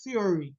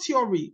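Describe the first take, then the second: First: Theory with a breathy th at the start; theory said the proper th way; correct th sound. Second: Theory said with a hard t, like tiory; theory with a stopped t instead of th; theory, t in place of th; wrong t sound. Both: Shown as a demonstration. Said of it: "So it's not theory, it's theory".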